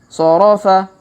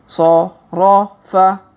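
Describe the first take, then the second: First: The syllables are read quickly. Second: The syllables are read slowly. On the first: "Kalau dipercepat" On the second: "kita baca pelan-pelan"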